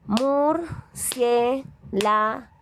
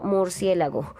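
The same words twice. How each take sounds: First: Murciélago drawn out slowly in beats, higher; slow syllable split. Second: Said in the usual way. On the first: Shown as a demonstration. (Murciélago lento, separando cada sílaba) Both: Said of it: "pendientes de lo que estamos diciendo".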